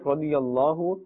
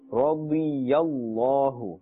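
First: It is said fast and the ya is dropped. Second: It is said carefully with the ya pronounced. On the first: The speaker calls it wrong. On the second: The speaker calls it right.

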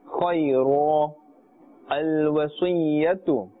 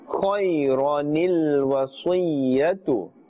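First: The words are split with no linking 'ni' sound. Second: The words are joined by an inserted 'ni' sound. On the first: The reciter pauses after the first word. "The bottom one is when we are stopping" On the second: The reciter continues without pausing. "the top example is when we are continuing"

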